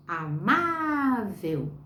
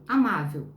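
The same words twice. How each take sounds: First: AMÁVEL com o MÁ bem esticado; "amável" drawn out slowly on the stressed "má"; sílaba tônica. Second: Said in the usual way. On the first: Shown as a demonstration. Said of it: "o pedacinho mais forte da palavrinha". ("amável" com a sílaba tônica "má" bem alongada) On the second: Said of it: "quando eu digo, por exemplo".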